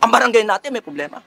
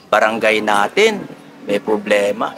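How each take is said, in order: First: It is said loudly and forcefully, with a raised voice. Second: It is said softly and weakly, without force. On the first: The speaker calls it right. "Dapat ... Kailangan taasan natin ang boses natin" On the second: The speaker calls it wrong. "Hindi ganyan"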